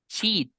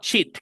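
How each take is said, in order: First: The vowel is held long. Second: The vowel is cut short. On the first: The speaker calls it right. "tienes que hacerlo largo" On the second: The speaker calls it wrong. "con I corta"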